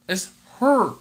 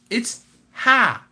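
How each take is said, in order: First: The vowel sounds like the u in hurry. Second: The vowel sounds like the a in hair. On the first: The speaker calls it wrong. "They don't say the A. They say a U" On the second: The speaker calls it right. "like hair"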